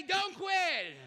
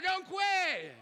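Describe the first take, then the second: First: Preacher's shout. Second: Louder shout. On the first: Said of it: "Oh, come on, do better". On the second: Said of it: "do better". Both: Real, not acted.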